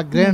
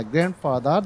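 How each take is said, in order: First: গ্র্যান্ড with the D sounded; common mispronunciation. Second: গ্র্যান্ডফাদার with the D dropped; silent D. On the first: Teacher showing students the usual slip, mispronounced. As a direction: say গ্র্যান্ড with an audible final D. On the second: Teacher modelling grandfather for students, silent D. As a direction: say গ্র্যান্ডফাদার as "gran-fadar", no D. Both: Shown as a demonstration. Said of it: "ডি এর উচ্চারণ হবে না".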